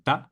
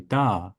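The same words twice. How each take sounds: First: The vowel is short. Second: The vowel is lengthened. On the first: The speaker calls it wrong. "Instead of saying da" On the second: The speaker calls it right. "I will make it a little bit longer"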